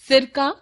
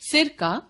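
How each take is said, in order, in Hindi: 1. इसे बिना विराम के एक शब्द के रूप में बोला जाता है। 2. इसे "सिर" के बाद हल्के विराम के साथ बोला जाता है। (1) "एक तरह का तरल पदार्थ" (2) "सिर से संबंध"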